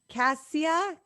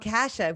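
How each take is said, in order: First: The name is pronounced like Cassia. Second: The name is pronounced like Kasha. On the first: The speaker calls it wrong. "did I say that right?" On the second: The speaker calls it right. "It's Kasha"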